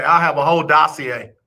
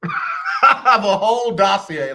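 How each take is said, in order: First: Said in the usual way. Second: Laughing through the line, slowed. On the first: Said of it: "repeated line, plain then laughing". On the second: Real, not acted. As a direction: repeat it while cracking up.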